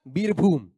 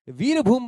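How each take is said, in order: First: The word begins with a b sound. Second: The word begins with a v sound. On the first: "Bengal में व का उच्चारण नहीं होता, व व का उच्चारण ब हो जाता है" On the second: "व"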